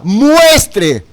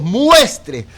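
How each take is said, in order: First: Preacher underlining muestre for the congregation; stress on muestre. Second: Said in the usual way. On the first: Shown as a demonstration. Weight landed squarely on muestre. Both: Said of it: "y enfatizo la palabra".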